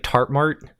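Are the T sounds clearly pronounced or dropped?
dropped. The T sounds are dropped, regional accent.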